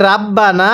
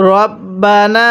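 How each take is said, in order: First: রাব্বানা with a plain, open "raa" at the start; mispronounced ra. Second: রব্বানা with a rounded "ro" and long final aa; correct heavy ra. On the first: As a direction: say রাব্বানা unchanted, with a light "raa". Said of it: "পড়াটা সহি শুদ্ধ হবে না". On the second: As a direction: chant রব্বানা, heavy first r, last vowel held. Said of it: "কিভাবে পড়তে হবে?". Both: Shown as a demonstration.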